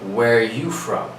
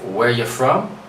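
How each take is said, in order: First: It is said in a less casual, more careful way. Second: It is said in a more casual, informal way.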